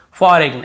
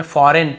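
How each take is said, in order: First: "फॉरेन" with a hard g before the n; g wrongly sounded. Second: "फॉरेन" ending in a plain n; g left silent. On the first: Teacher shows how not to read it, g pronounced. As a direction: put an audible g into फॉरेन, falling tone. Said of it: "ऐसे नहीं पढ़ने में". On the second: Teacher gives the correct reading, g silent. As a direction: say फॉरेन with no g at all. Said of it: "फॉरेन पढ़ना है". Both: Shown as a demonstration.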